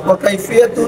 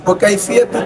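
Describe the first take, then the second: No difference in how they are said.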